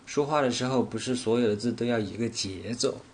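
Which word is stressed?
节奏. The stress falls on the word 节奏. It is about rhythm being the same, not intonation. "我分别把重点放在了说话，不是所有，节奏这三个词上"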